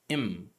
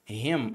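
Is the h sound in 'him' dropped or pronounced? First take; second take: dropped; pronounced. First: The word is reduced, with the h dropped. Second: The word starts with a clear h sound. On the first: "ele fala him" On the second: "ele não pronuncia him"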